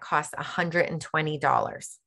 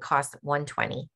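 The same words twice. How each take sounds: First: The price is stressed as if it is a lot. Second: The price is said lightly and matter-of-factly. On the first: The price seems large and worrying. The speaker calls it wrong. "we never say" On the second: The price is nothing to worry about. The speaker calls it right. "You simply say it ... Like it's not a big deal"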